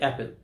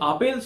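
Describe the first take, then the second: First: The first vowel is a front 'a' sound. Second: The first vowel is an open 'ah' sound. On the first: This is the form taught correctly at school. The speaker calls it right. "তার সঠিক উচ্চারণ হচ্ছে অ্যাপেল" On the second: This is the form picked up informally in childhood. The speaker calls it wrong. "আপেল সে ছোটবেলা থেকে শিখে গেছে"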